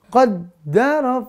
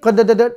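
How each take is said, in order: First: The doubled d is held without any bounce. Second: The doubled d bounces like a broken engine. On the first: The speaker calls it right. "Qaddara fahada gitu ya" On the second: The speaker calls it wrong. "jangan memantul. Jangan sampai dibacanya waladzi qadadat"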